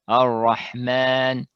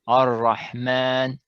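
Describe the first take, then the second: Both takes have the same delivery.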